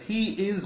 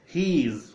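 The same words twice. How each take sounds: First: Both words are said in full. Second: The words are joined into one short syllable.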